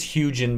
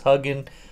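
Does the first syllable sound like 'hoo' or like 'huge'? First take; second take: huge; hoo. First: The first syllable sounds like 'huge'. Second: The first syllable sounds like 'hoo'. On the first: The speaker calls it right. "I think it's Hugin because, you know, panoramas are huge" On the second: The speaker calls it wrong. "I don't think it's Hugin"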